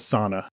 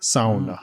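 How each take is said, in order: First: It is said the usual English way. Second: It is said the Finnish way, with a U sound. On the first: The speaker calls it wrong. "Everybody says sauna incorrectly" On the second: The speaker calls it right. "the Finnish way to say it... kind of like a U in there"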